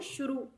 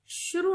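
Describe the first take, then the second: First: The final vowel is long. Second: The final vowel is short. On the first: The speaker calls it right. "रा पर बड़े की मात्रा लगानी है" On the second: The speaker calls it wrong. "शुरू नहीं होता है"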